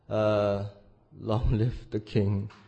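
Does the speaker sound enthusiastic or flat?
flat. It is said flatly, without enthusiasm. The speaker doubts the new ruler. "If you say it wrong in the second part"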